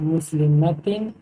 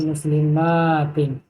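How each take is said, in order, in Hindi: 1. -tin से पहले वाला स्वर छोटा है। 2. -tin से पहले वाला स्वर लंबा खींचा जाता है।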